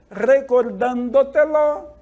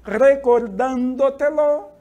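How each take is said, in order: First: Recordándotelo again slow, stress on DAN; teacher repeats the model; model pronunciation. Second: Recordándotelo slow, stress on DAN, louder; teacher's slow model read; model pronunciation. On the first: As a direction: repeat recordándotelo slowly for class. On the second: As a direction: carefully sound out Recordándotelo for students. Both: Shown as a demonstration. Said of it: "Exemplos de palavras sobre esdrújulas".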